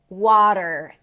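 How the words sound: A flapped T and a pronounced R. "this is American pronunciation"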